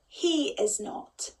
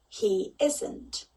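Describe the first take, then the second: First: The verb and not are said as separate words. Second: The verb and not are pushed together into one.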